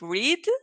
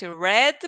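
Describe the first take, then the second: First: The vowel is long, like 'reed'. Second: The vowel is short, like 'red'. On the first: It is the base form of the verb. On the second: It is the past simple form. "we say the pronunciation is red. Red, just like the color"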